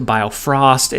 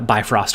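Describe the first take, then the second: First: It is said as bio-frost. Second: It is said as bi-frost. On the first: The speaker calls it wrong. "We then corrected it to biofrost" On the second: The speaker calls it right. "not once did we say bi uh, bifrost correctly"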